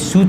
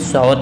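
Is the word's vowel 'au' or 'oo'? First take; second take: oo; au. First: The vowel is a long 'oo' sound. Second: The vowel is an 'au' diphthong sound. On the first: The speaker calls it wrong. "इसमें सूत नहीं है" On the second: The speaker calls it right. "इसमें सौत है"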